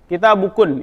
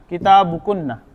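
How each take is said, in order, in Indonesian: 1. Kata ini diakhiri konsonan, vokalnya hilang. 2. Kata ini diakhiri bunyi vokal. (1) "Tapi biasanya dibacanya mati" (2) "Tapi kalau dalam kaidah penulisan dia hidup"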